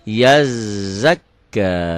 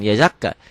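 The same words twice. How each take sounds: First: The consonants are held long and doubled. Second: The consonants are said short, without doubling. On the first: The speaker calls it right. "double-double tasdid" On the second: The speaker calls it wrong. "bukan yazakka"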